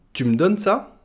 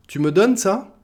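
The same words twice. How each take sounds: First: "tu me" squeezed into "tum"; swallowed e. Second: "tu me donnes ça" with a full "me"; e sounded. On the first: Teacher showing spoken French, "tu me" said "tum". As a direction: ask "tu me donnes ça" as "tum donnes ça", higher. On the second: Teacher giving the full form, "me" fully sounded. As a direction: ask "tu me donnes ça", higher, me pronounced. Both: Shown as a demonstration. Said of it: "on va le manger le e".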